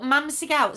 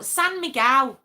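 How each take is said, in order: First: Mam Miguel, with an M sound at the start; reading back the misspelt Mam Miguel; misread beer name. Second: San Miguel, starting clearly with an S; correcting it to San Miguel, slightly louder; correct beer name. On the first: Teasing a viewer by reading his misspelt beer name. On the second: Correcting a viewer's misspelt beer name. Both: Shown as a demonstration. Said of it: "What have you put".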